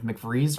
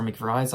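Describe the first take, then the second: First: "McVries" with a long ee, rhyming with breeze; ee pronunciation. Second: "McVries" with a long i, rhyming with fries; eye pronunciation. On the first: Reviewer unsure of a character's name, ee pronunciation. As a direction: say "McVries" as mick-VREEZ. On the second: Reviewer offering the other guess at a name, eye pronunciation. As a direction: say "McVries" as mick-VRIZE. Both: Shown as a demonstration. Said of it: "I don't know how to pronounce it".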